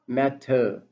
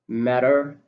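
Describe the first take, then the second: First: It is said in a British accent. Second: It is said in an American accent. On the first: "in British accent" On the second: "in American accent"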